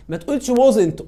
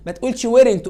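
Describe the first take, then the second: First: ما تقولش wasn't said louder; firm teacher warning; emphatic warning. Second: ما تقولش weren't said louder; firm teacher warning; emphatic warning. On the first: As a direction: warn firmly against wasn't. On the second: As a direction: warn firmly against weren't. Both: Shown as a demonstration. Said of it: "ان ابوستروف تي".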